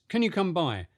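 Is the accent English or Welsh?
English. It is said in a plain English accent. "Do that again, but with English"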